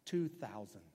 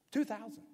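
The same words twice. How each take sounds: First: Said in the usual way. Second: Amazed repeat. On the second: Shown as a demonstration. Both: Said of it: "guess how many".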